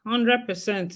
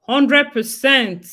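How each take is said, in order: First: Said in the usual way. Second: "Hundred percent" stretched slow and louder, weight on "Hundred"; emphatic agreement. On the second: Real, not acted. Agreeing with a viewer's comment, slow, louder emphatic "Hundred percent". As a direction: lean hard into "Hundred", slow and loud.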